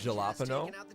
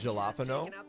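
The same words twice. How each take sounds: First: The word is pronounced in an odd, jokey way. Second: The same.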